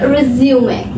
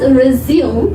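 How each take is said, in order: First: It is said with the noun pronunciation. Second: It is said with the verb pronunciation. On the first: It means a summary of work experience. "if it is used as a noun, then it is pronounced as resume" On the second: It means to start again. "If it is used as a verb, then it is pronounced as resume"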